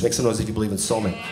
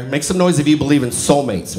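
First: Hurried, dropped-voice repeat; quieter, faster repeat. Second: Said in the usual way. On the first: Shown as a demonstration. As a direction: Make some noise if you believe in soulmates said softer and quicker. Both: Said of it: "repeated softer".

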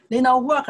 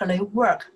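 First: NOT hit higher and louder in "They not work"; stress on NOT. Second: Said in the usual way. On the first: Shown as a demonstration. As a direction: push the word not to mark the wrong sentence.

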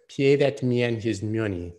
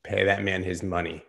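First: Slow, higher gambler's line with a put-on voice; doing the Rounders movie line in character; movie quote voice. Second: Said in the usual way. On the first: Shown as a demonstration. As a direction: deliver it like the Rounders card player. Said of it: "Another movie quote, but in the proper voice". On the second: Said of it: "but in the proper voice".

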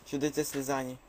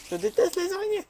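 First: Said in the usual way. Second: High, loud mock-frightened squeak; squeaky high voice. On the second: Squeaking to viewers about hated spiders. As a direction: squeal it like a scared cartoon.

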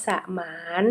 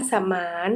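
First: สมาน split as สะ-หมาน; syllable-by-syllable reading. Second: Said in the usual way. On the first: Shown as a demonstration. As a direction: sound out สมาน as สะ, then หมาน. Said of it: "อ่านว่าสมาน". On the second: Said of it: "คำว่าสมาน".

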